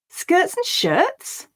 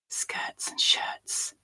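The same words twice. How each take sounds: First: It is spoken with surprise. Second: It is spoken in a whisper. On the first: "Now we'll say it with surprise" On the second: "we'll whisper it"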